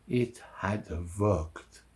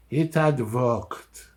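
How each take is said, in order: First: Slow, low and hushed; quiet realization. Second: HAD lifted, slow and deliberate; emphatic repeat. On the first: Fugitive realizing the gamble paid off, quiet and slow. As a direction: let it sink in slowly, softly. Relieved realization, first of two takes. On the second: Fugitive marvelling at the escape, slow emphatic "had". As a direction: slowly affirm it, leaning on "had". Same realization repeated with more force. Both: Acted.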